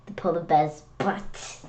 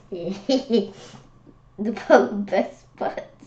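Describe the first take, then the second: First: Said in the usual way. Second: Very slow, giggling over the word butt; laughing. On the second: Real, not acted. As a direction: savour the silly joke through laughter. Repeats it, laughing.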